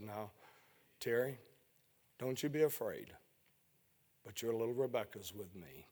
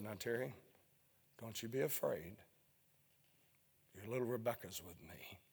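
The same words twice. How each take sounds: First: Hushed, much softer voice of God; softly voicing the still small voice. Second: Hushed, much softer voice of God; softly repeating the still small voice. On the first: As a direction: say it gently, barely above a breath. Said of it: "that small, still voice". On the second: Retold or imitated. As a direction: say it tenderly, almost inaudible. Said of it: "in that small, still voice".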